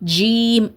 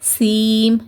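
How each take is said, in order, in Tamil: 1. உதடுகள் மிகவும் அகலமாக விரிகின்றன. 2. முதல் மெய்யெழுத்து s போல ஒலிக்கிறது. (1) "உதடுகளை ரொம்ப விரிச்சு" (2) "எஸ் சவுண்ட் கொடுத்து"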